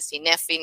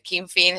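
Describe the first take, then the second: First: The word begins with an s sound. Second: The word begins with a k sound. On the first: The speaker calls it wrong. "no se dice Sinefin" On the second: The speaker calls it right. "se dice Kinfin"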